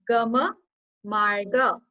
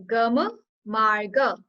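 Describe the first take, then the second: The two takes are said the same way.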